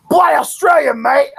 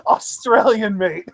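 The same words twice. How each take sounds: First: Put-on loud, higher caricature Australian accent shouted out; over-the-top Australian accent. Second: Put-on Australian accent breaking up in laughter; Australian accent, laughing. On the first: Imitating wrestler's Australian nickname catchphrase, hammed-up Australian accent shout. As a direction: bellow it like a cartoon Aussie wrestler. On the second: Retelling wrestler's nickname to co-host, laughing mock Australian accent. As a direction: laugh through the Aussie catchphrase. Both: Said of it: "ridiculous over-the-top Australian accent".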